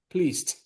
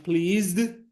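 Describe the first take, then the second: First: The final sound of the word is t. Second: The final sound of the word is not t. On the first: The speaker calls it right. "nessa palavra, o som final é t" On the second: The speaker calls it wrong. "mas esse não é o caso nessa palavra"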